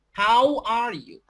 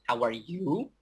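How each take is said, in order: First: "How" high, loud and drawn out, falling to "you"; slow, big emphasis on "How", then let it fall; stressed how, falling. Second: "you" stretched with a rise at the end; rising intonation on you. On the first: Teacher showing how native speakers read, punched "How". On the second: Teacher showing how native speakers read, rising "you". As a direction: start low on "How are", lift "you". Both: Shown as a demonstration. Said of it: "how native speakers".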